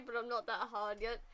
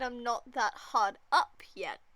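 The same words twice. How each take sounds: First: Said in the usual way. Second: "up" punched loud and drawn out, slowly; stressed correction. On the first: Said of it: "Did Andrew just say". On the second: Retold or imitated. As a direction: correct the quote, leaning hard on "up".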